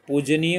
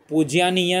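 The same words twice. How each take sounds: First: पूजनीय with plain ज and no glide, puj-niya; correct form. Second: पूज्यानीय with a ya glide after ज, pu-jya-niya; wrong form said aloud. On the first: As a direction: say पूजनीय cleanly, no ya after ज. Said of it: "पूजनीय होता". (पूजनीय, ज के बाद य नहीं) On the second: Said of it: "पूज्यानीय नहीं होता". (पूज्यानीय, ज के बाद य के साथ) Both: Shown as a demonstration.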